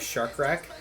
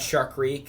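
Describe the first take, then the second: First: The second word rhymes with 'deck'. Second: The second word rhymes with 'seek'. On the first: The speaker calls it wrong. "Many people call this truck uh" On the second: The speaker calls it right. "which which spells reek"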